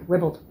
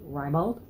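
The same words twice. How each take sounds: First: The word sounds like 'ribbled'. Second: The word does not sound like 'ribbled'. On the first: The speaker calls it right. "that makes it sound like R I B B L E D" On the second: The speaker calls it wrong. "I totally always, in my whole entire life, thought it would be ribald"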